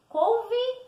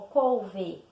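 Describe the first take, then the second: First: "Couve" drawn out, ending in I: cou-vi; final E as I. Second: "couve" drawn out, ending in full E: cou-vê; spelling pronunciation. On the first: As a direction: say "Couve" slowly with an I sound at the end. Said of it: "eu pronuncio com som de I". ("Couve" com som de I no final: cou-vi) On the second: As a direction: say "couve" slowly as it is written, cou-vê. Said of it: "Eu escrevo com E". ("couve" como se escreve, com E final: cou-vê) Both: Shown as a demonstration.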